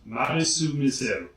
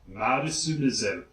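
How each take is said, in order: First: The name is said with a Japanese accent. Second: The name is said with a Japanese accent.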